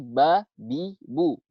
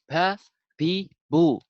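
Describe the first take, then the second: First: The b is released without a puff of breath. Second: The b is released with a puff of breath. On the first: The speaker calls it right. "Jadi ba, bi, bu" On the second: The speaker calls it wrong. "bukan ba, bi, bu"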